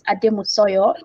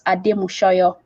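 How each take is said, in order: First: The third syllable begins with an 's' sound. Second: The third syllable begins with an 'sh' sound. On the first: The speaker calls it wrong. "I pronounced it Ademusoyo initially" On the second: The speaker calls it right. "it's Ademushoyo"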